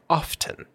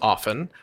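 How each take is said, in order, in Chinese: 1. T 这个音发得很明显。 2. T 这个音不发。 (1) "in the Mid-Atlantic, Transatlantic accent, that T is very strong" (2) "Most often, we will say"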